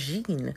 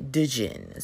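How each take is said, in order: First: The word begins directly with a J sound. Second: The word begins with a sounded D before J. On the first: "it's just Jean or Jean, like genie" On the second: "I'm going to see the D and the J, and I'm going to say Dijin"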